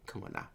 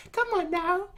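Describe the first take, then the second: First: A very soft, low Come on now; soft smug brush-off. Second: High mocking taunt. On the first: Retold or imitated. Kanki brushing off the enemy, very soft and low. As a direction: mutter it, barely bothered. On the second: Kanki taunting the enemy, high teasing Come on now. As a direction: Come on now said much higher, teasing rise. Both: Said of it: "Kanki's like".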